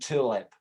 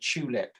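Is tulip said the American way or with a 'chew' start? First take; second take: American; chew start. First: It is said with a Southern American sound. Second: It starts with a 'chew' sound and pushed lips. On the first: The speaker calls it wrong. "rather than tulip" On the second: The speaker calls it right. "you push your lips together and say tulip"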